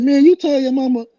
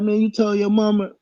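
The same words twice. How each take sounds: First: High disbelieving accusation; incredulous. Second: High disbelieving ask; incredulous question. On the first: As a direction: call him out, amazed. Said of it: "I said". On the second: Teller to the rival at the office, high disbelief. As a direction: ask it, amazed. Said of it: "So I was like". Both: Retold or imitated.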